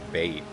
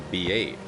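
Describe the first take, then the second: First: It is run together as one syllable. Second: It is said as two separate syllables. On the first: The speaker calls it wrong. "you don't say" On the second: The speaker calls it right. "You say"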